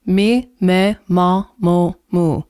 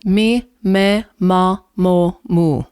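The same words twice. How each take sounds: First: The vowels are pure, clear and clean. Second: The same.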